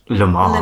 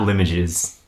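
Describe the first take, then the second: First: The name is said the French way, ending like fromage. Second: The name is said with an anglicized, non-French ending. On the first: The speaker calls it right. "Like fromage" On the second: The speaker calls it wrong. "so not Limoges"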